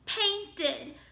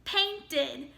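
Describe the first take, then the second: The two takes are said the same way.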